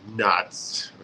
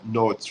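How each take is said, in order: First: The vowel sounds like 'ah'. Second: The vowel sounds like 'oh'. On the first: The speaker calls it right. "O sounds more like alif" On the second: The speaker calls it wrong. "you will not say no, notes, right?"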